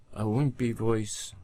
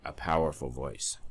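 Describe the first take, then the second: First: Small, higher, wimpy voice. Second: Solid, powerful delivery; firm, confident power. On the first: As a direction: sound weak and feeble. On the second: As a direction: say it with strength. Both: Shown as a demonstration.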